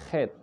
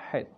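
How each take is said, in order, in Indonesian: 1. Diawali dengan bunyi kh yang serak dan bergesek. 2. Diawali dengan bunyi h yang berdesah dari tenggorokan.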